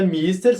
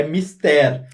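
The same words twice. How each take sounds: First: "mister" as MIS-ter, first syllable stressed; English mister. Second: "mister" as mis-TÉR, open final e; Portuguese mister. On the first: Colleague explaining the English title, stress on MIS. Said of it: "que vem do inglês". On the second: Colleague giving the Portuguese word, stress on TÉR. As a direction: stress the last syllable of "mister". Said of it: "a palavra em português". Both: Shown as a demonstration.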